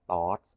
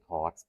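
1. ตัว t ตัวแรกไม่พ่นลม เหมือนตัว ต ในภาษาไทย 2. ตัว t ตัวแรกพ่นลม เหมือนตัว ท ในภาษาไทย (1) "สามารถอ่านได้ว่าเป็นต่อเต่าก็คือ" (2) "ถ้าเป็นคนไทยเนี่ยเขาจะให้ใช้เป็นทอทหาร"

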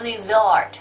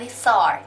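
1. พยัญชนะตรงกลางเป็นเสียง z แบบสั่นค่ะ 2. พยัญชนะตรงกลางเป็นเสียง s แบบฟู่ค่ะ (1) "อ่านว่า lizard นะคะเป็นเสียงสั่นเสียง vibrating sound" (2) "ไม่อ่านว่า"

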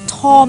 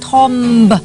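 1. สระ 'o' เสียงสั้น ไม่มีเสียง b ท้ายคำ 2. สระ 'o' เสียงสั้น มีเสียง b ท้ายคำ (1) "คำนี้เนี่ยมันอ่านว่าอะไรอ่ะทอมหรอ" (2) "ทอมบไม่ใช่เลย"

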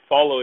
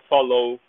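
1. Ela é pronunciada com sotaque inglês padrão. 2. Ela é pronunciada com sotaque de estilo francês. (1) "em vez de dizer follow" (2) "eles falam follow. ... puxando um pouco mais pro francês"

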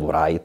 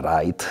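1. Na začátku se zvuk w vyslovuje. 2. Na začátku se zvuk w nevyslovuje. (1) "nebylo right" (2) "ale right, ... na tom dvojitým trvala, že se nevyslovuje"

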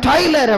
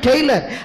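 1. முதல் அசை 'tie' போல ஒலிக்கிறது. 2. முதல் அசை 'tay' போல ஒலிக்கிறது. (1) "ஐம் டைலர் அப்படிம்பாரு" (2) "ஐம் நாட் டெய்லர்"

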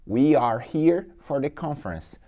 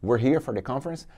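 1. 'We are' é falado como duas palavras completas. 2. 'We are' é falado junto, rápido e contraído. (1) "Contração de we are" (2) "Você fala mais rápido"

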